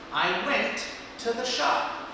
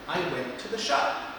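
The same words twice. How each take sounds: First: The sentence is said more slowly and less smoothly. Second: The sentence is said faster and more smoothly.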